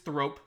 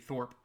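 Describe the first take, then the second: First: The r sound comes before the vowel. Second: The r sound comes after the vowel. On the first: The speaker calls it right. "But it is Thrope" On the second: The speaker calls it wrong. "I was pronouncing this wrong"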